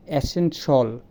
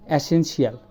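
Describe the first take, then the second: First: "এসেনশাল" slowly, ending in -shal; slow "এসেনশাল", two syllables at the end; correct pronunciation. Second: "এসেনশিয়াল" with an extra -shiyal; common mispronunciation. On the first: The teacher slowly models esenshal. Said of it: "এটা হবে". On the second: The teacher shows the common esenshiyal. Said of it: "আমরা বলি". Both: Shown as a demonstration.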